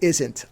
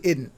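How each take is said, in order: First: The middle consonant is an s sound. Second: The middle consonant is a d sound. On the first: "I don't say isn't" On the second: "I say idn't"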